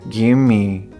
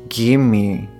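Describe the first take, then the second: The two takes are said the same way.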